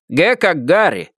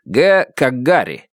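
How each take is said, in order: First: Г как Гарри read back slowly, higher than the sheriff's take; spelled back slowly. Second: Г as in Гарри, each word spoken slowly and evenly; spelled out slowly. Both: A narrator's reading.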